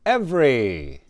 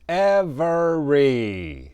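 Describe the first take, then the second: First: The word is said quickly and compressed. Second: The word is said slowly and carefully.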